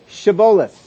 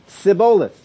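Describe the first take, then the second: First: The word begins with a 'sh' sound. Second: The word begins with an 's' sound. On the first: This is the password as it should be said. The speaker calls it right. "say Shaboleth" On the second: The speaker is from the enemy tribe. The speaker calls it wrong. "For he could not pronounce it right"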